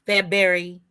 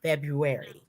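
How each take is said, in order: First: February squashed to FEB-berry; berry mispronunciation. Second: February as FEB-roo-air-ee, first R sounded; February said fully after spelling it; all letters pronounced. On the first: Cohost showing listeners the berry mistake, February as FEB-berry. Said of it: "it's not a berry either". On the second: Cohost correcting the berry mistake, careful pronunciation. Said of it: "Make sure you pronounce all of the letters". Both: Shown as a demonstration.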